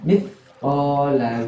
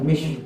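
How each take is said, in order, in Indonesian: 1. Kata ini diawali dengan bunyi th. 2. Kata ini diawali dengan bunyi sh. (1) "Ini bacanya mithqala dzarratin" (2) "bukan mish, salah"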